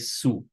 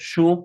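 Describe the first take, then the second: First: The word begins with an s sound. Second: The word begins with an sh sound. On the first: This is the more common pronunciation in casual everyday speech. "or we can also say su" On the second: This is the pronunciation that matches the spelling. "We can either pronounce it shu as it is written"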